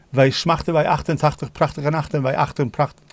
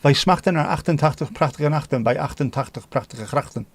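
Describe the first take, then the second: First: "Wij smachten bij achtentachtig prachtige nachten" rattled out with throaty ch sounds; Dutch tongue twister. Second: "Wij smachten naar achtentachtig prachtige nachten" with throaty Dutch ch's; Dutch tongue twister. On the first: Streamer attempting a Dutch tongue twister for chat. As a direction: roll the guttural ch's of the Dutch twister. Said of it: "Dutch tongue twister". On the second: Streamer retrying the Dutch twister for chat. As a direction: land every guttural ch of the twister cleanly. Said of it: "I'll start again". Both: Shown as a demonstration.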